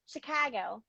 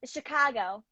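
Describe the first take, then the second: First: "Chicago" with a big, open A; "Chicago" as a Midwesterner says it, broad A; Midwest Chicago. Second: "Chicago" with the A opened up; "Chicago" in a demonstrated Midwest accent. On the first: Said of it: "Yeah, big A's". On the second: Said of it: "they open up the A's a lot". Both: Shown as a demonstration.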